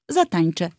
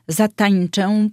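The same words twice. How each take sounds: First: The final vowel is a plain e. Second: The final vowel is strongly nasal. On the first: The speaker calls it right. "wymawiamy to ę na końcu wyrazu oczywiście jako e" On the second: The speaker calls it wrong. "to brzmi bardzo pretensjonalnie"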